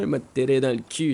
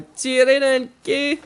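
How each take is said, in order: First: Said in the usual way. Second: High, loud holler; taunting yell. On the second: Acted. Player repeating a threat at the bear, taunting yell.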